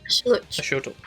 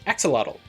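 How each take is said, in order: First: The first consonant is pronounced as sh. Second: The first consonant is pronounced as ks. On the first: The speaker calls it right. "Yep, yep" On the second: The speaker calls it wrong. "No, that's not how you pronounce it"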